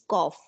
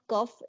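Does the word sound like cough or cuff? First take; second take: cough; cuff. First: The vowel sounds like the one in cough. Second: The vowel sounds like the one in cuff. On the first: The speaker calls it right. "it's cough" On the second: The speaker calls it wrong. "this is not cough"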